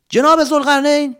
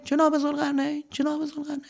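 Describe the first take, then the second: First: High loud call into the cave. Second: Fading, softer echo; fading cave echo. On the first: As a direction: call out to find him. Calling out in cave. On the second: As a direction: let the name echo away. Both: Acted.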